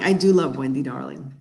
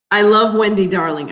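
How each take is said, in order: First: "do" leaned on, the rest softer and lower; quiet "I do love", the "do" stressed. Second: Said in the usual way. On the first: Shown as a demonstration. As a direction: insist with "do" in "I do love".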